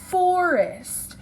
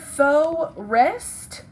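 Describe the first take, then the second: First: The first syllable is an r-colored 'for' sound. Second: The first syllable is an open 'fo' sound. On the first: The speaker calls it right. "The word is forest" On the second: The speaker calls it wrong. "this becomes faux. Is the word faux rest? No, it is not"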